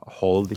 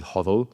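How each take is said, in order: First: Said in the usual way. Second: "hodl" with the D before the L, two syllables; switched letters. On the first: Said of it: "instead of". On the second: Shown as a demonstration. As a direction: say "hodl" as a misspelt hold, HOD-ul. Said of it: "switching the L by the D".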